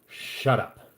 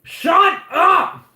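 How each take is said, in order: First: It is said in a dramatic way. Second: It imitates the Smosh intro shout.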